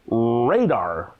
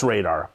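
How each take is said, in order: First: "radar" with a long, extended opening R; extra R. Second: Said in the usual way. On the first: Acted. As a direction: draw out the first R of "radar". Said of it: "It's the extra R". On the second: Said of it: "I call it radar".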